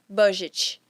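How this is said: It is said with Brazilian Portuguese sounds. The loanword has been adapted to local speech. "a gente pronuncia da nossa forma, que é o caso de budget"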